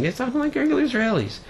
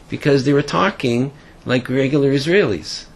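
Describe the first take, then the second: First: Much higher and faster, marvelling at it; amazed high exclamation. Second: Said in the usual way. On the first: Retold or imitated. The soldier recounting his shock, amazed and much higher. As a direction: blurt it out in disbelief, up high and quick. Repeats the line, stunned.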